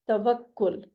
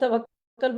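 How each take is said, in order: First: The final syllable has a short u vowel. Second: The final syllable has a short a vowel. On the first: The speaker calls it right. "दुरुस्त pronunciation है" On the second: The speaker calls it wrong. "इसे भी हम तवक्कल बोलते हैं।"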